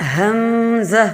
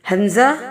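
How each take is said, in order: First: The vowel sounds are stretched and drawn out. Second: The vowel sounds are kept short and crisp. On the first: The speaker calls it wrong. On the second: The speaker calls it right.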